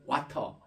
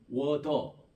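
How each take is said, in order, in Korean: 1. 중간 자음은 분명한 T 소리입니다. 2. 중간 자음은 약해져서 D 소리가 납니다. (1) "영국식 영어는 와터 이렇게 T 발음을 분명히 하는데" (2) "워더 D 발음으로 됐다가"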